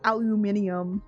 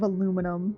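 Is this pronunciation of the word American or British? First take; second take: British; American. First: It is said with a British pronunciation. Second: It is said with an American pronunciation. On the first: "Like aluminium instead of aluminum" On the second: "instead of aluminum"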